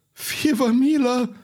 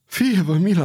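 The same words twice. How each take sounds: First: High, slow, drawn-out cry for mercy; terrified plea. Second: A gasping, higher cry for mercy; rattling plea. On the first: Ferryman held underwater, begging Pardaion for mercy in terror. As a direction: beg for your life, voice climbing. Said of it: "strigă podarul alb la față de spaimă". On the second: Half-drowned ferryman gasps for mercy after surfacing. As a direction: beg while choking on water. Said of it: "horcăi". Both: A narrator's reading.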